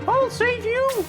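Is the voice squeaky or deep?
squeaky. It is said in a squeaky voice.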